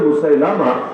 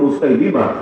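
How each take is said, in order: First: The third syllable has the vowel 'a'. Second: The third syllable has the vowel 'i'. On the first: This is how people commonly say it. The speaker calls it wrong. "লোকে বলে মুসাইলামা" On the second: This is the correct pronunciation. The speaker calls it right. "শুদ্ধ উচ্চারণ হলো মুসাইলিমা"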